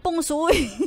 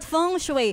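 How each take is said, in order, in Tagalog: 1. Ang unang salita ay nagsisimula sa tunog na P. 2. Ang unang salita ay nagsisimula sa tunog na F. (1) "hindi Peng Shui" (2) "Dapat Feng Shui"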